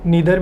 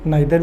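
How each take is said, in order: First: The first vowel sounds like 'ee'. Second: The first vowel sounds like 'eye'. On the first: "इसको हम लोग नीदर भी पढ़ सकते हैं" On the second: "नाइदर भी पढ़ सकते हैं, दोनों उच्चारण आपके ठीक माने जाते हैं"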